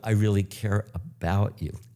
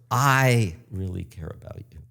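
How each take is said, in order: First: The stress is on "about". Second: The stress is on "I".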